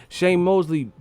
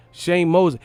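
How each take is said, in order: Both takes have the same delivery.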